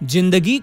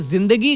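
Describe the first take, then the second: First: The word begins with a hard j sound. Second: The word begins with a buzzing z sound. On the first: The speaker calls it wrong. "न कि जिंदगी" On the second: The speaker calls it right. "तो हम उसे जिंदगी गाएं"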